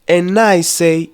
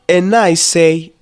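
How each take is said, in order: No difference in how they are said.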